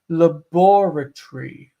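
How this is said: The stress falls after the first syllable. "How do they say it in England? They say laboratory"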